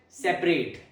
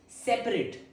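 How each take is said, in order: First: The last syllable is a full 'ate' sound. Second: The last syllable is a reduced 'it' sound. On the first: It means to divide or move apart. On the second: It describes things not joined together.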